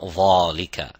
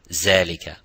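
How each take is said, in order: First: It starts with a heavy th sound. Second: It starts with a z sound. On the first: "not dhalika" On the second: "Neither zalika"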